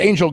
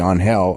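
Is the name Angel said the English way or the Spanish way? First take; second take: English; Spanish. First: Angel is said with an English pronunciation. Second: Angel is said with a Spanish pronunciation. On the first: Someone in charge told them to say it this way. "no, it's Angel Garza"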